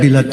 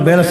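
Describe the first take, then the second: First: The first vowel sounds like 'i'. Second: The first vowel sounds like 'e'. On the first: "sa Bisaya, bilat yun eh" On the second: "Sa Tagalog"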